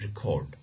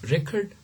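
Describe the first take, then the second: First: The stress is on the second syllable. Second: The stress is on the first syllable. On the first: It is used as a different grammatical category. "the stress shifts to the second syllable" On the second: It is used as a noun. "they are all nouns here, okay, and the stress is on the first syllable"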